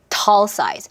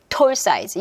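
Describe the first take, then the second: First: The vowel is open, with the jaw dropped. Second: The vowel is a rounded Korean-style o. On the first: Listeners start to understand it. The speaker calls it right. "뒤턱 한번 열었을 뿐인데 알아듣기 시작한다" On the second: Listeners will not understand it. The speaker calls it wrong. "톨 size 이러면 못 알아들어요"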